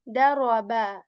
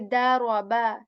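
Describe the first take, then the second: Both takes have the same delivery.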